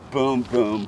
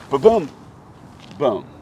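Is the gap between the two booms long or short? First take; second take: short; long. First: The booms follow each other with a short gap. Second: The booms are separated by a long gap. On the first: The energy is transferred efficiently. The speaker calls it right. "There's a tempo to it" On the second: The energy is leaking. The speaker calls it wrong. "with a delay"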